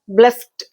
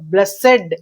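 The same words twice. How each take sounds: First: The word is said as one syllable. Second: The word is said as two syllables. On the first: "but it should be made into disyllabic" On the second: "So blessed, blessed, like that"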